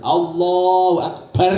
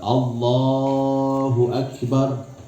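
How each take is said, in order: First: The final syllable is shouted much too loudly. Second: The final syllable is at normal loudness. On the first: The speaker calls it wrong. "barnya kebanteran" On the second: The speaker calls it right. "memanjangkan lafzul jalalah dan menebalkan ro yang ada dalam akbar"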